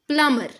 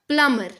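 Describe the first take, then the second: Both takes have the same delivery.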